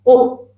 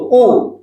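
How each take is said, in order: First: The vowel is clipped short and rushed. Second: The vowel is held for one full beat. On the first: The speaker calls it wrong. "ini terlalu cepat" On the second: The speaker calls it right. "satu harokatnya bunyinya seperti itu"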